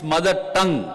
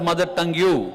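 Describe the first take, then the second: First: Tongue ends with no added syllable. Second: Tongue ends with an added 'you' syllable. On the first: The speaker calls it right. "It's mother tongue" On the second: The speaker calls it wrong. "Don't pronounce it as mother tongue you"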